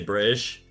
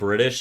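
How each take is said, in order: First: The t sound in the middle is dropped. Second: The t sound in the middle is pronounced. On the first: "you don't pronounce your T's" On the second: "instead of saying"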